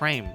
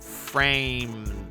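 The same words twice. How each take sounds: First: It is said in a normal voice. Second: It is yelled in Terezi's weird, annoying voice.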